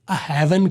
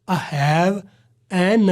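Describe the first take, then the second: First: Have and an run together as one word. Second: Have and an are said as separate words. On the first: The speaker calls it right. "एन को हैव के साथ मिला दें" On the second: The speaker calls it wrong. "न करें"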